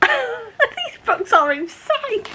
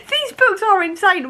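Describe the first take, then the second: First: High, slow, laughing through the words; laughing disbelief. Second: Said in the usual way. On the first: Real, not acted. Reacting to a wild book twist for viewers, laughing.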